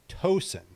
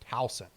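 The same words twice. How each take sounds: First: The first syllable sounds like the word tow. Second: The first syllable does not sound like tow. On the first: The speaker is an outsider. The speaker calls it wrong. "like like a tow truck" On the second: The speaker is a local. The speaker calls it right. "It's not Towson, guys. It's Towson"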